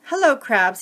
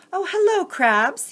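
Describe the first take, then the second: First: A bit louder and firmer, less lift; corrected take of Bowie's greeting. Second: Higher, brighter greeting, later redone; first take of Bowie's greeting. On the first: Reader redoes Bowie greeting the crabs, firmer take. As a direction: settle the greeting on the retry. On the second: Reader's first try at Bowie greeting the crabs, mild lift. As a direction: read the greeting then correct it. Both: Acted. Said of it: "let me fix that".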